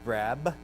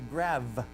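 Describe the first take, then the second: First: The word ends with a b sound. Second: The word ends with a v sound. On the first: The speaker calls it right. "instead of saying grab" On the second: The speaker calls it wrong. "he would say grav"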